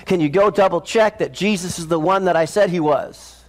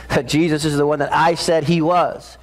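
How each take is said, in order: First: Said in the usual way. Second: I in "that I said he was" leaned on and set apart; stress on I. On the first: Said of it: "He says to his disciples". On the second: Shown as a demonstration. Preacher repeating John's words to make the congregation notice, leaning on I. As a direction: press the word I in "the one that I said he was". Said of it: "Did you catch that?".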